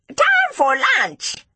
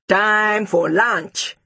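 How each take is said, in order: First: It is shouted in a small, squeaky voice. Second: It is shouted in a big, loud voice.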